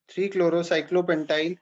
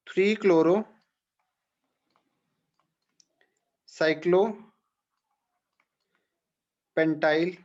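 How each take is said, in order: First: Said in the usual way. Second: "three chloro", "cyclo", "pentyl" each said alone with long pauses between; dictated in pieces. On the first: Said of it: "name repeated as one whole". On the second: Shown as a demonstration. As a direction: dictate it part by part so students can write. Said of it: "dictating the name piece by piece". (टुकड़ों में रुक-रुक कर बोला गया नाम)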